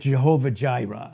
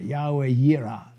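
First: The name begins with a J sound. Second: The name begins with a Y sound. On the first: The speaker calls it wrong. "We had Jehovah Jireh" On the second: The speaker calls it right. "I'm just going to pronounce it the right way"

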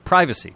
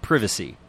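First: It is said with an American pronunciation. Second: It is said with a British pronunciation.

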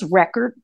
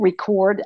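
First: The stress is on the first syllable. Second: The stress is on the second syllable. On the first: "Record is on the first syllable" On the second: "Record accent is on the second syllable"

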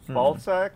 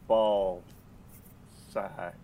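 First: The two words run together without a pause. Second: There is a pause between the two words.

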